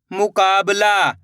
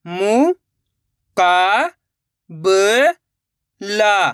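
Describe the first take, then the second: First: Said in the usual way. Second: मुकाबला in four long, separated syllables. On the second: Shown as a demonstration. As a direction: sound out मुकाबला with a gap after each syllable. (मुकाबला को एक-एक अक्षर अलग करके) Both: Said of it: "एक अक्षर का उच्चारण करके".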